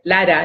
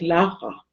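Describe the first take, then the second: First: The name is said with a Spanish accent. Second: The name is said with a native German accent. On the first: The speaker calls it wrong. "él también va a hablar como yo" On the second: The speaker calls it right. "mamá es Lara"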